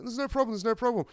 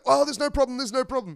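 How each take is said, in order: First: High, calm bad Irish accent; bad Irish accent, unbothered; attempted Irish accent. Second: High, loud panicked pleading; suddenly terrified, backing off fast; mock-frightened trucker; scared backing down. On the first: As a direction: soothe him in a shaky Irish accent. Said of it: "Can't do an Irish accent".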